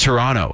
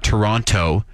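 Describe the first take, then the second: First: The second T is dropped. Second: The second T is clearly pronounced. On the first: The speaker is from the city. The speaker calls it right. "you drop that second T" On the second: The speaker is not from the city. The speaker calls it wrong. "pronounced the second T in Toronto. It's not Toronto"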